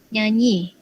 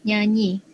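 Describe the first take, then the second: No difference in how they are said.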